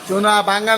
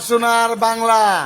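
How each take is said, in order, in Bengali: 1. প্রথম শব্দটি r ধ্বনি ছাড়া শেষ হয়। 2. প্রথম শব্দটি r ধ্বনি দিয়ে শেষ হয়। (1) "সোনা বাংলা না" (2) "এমনি ক"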